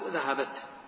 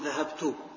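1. تنتهي الكلمة بصوت التاء الساكن. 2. تنتهي الكلمة بالضمة القصيرة. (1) "وبالسكون" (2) "أحركها بالضم"

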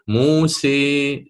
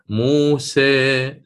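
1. الحركة الأخيرة مُمالة بشدة نحو i. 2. الحركة الأخيرة مُمالة قليلاً نحو e. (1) "الإمالة الكبرى... سيرتفع اللسان أكثر في اتجاه الحنك الأعلى" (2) "التقليل وهي الإمالة الصغرى... سيصعد وسط اللسان إلى فوق بعض الشيء"

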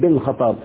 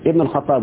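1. الكلمة الأولى تبدأ مباشرة بحرف 'b'. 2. الكلمة الأولى تبدأ بحركة 'i'. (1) "بعض السعوديين يقول لك بن الخطاب ... ما يقولش بن غلط" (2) "هي تنطق لكن لا تكتب. اقول عمر ابن الخطاب"

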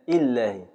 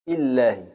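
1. صوت الياء يُحذف تمامًا. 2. صوت الياء يُحذف تمامًا.

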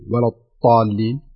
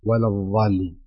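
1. ينطق كالطاء. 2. ينطق كالظاء. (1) "وينطقها طاء" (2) "وينطقها ضاء"

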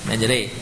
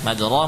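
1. Vokal setelah r condong ke bunyi 'e'. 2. Vokal setelah r adalah 'a' terbuka. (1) "Diganti e, majroh menjadi majre" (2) "majroh menjadi majre"

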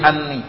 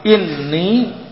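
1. Kata ini diawali dengan vokal 'a'. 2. Kata ini diawali dengan vokal 'i'. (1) "Enggak boleh anni" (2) "wajib dibaca kasrah"

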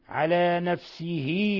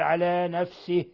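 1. تتبع الهاء الأخيرة i طويلة. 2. ليس بعد الهاء الأخيرة أي حركة. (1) "إذا وصلنا على نفسه وكان" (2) "لأن إذا وقفنا عليه نقول على نفسه"

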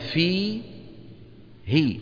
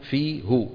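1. تأتي بعد الهاء كسرة. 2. تأتي بعد الهاء ضمة. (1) "فيقولون في هي" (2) "ولا يقولون في هو"

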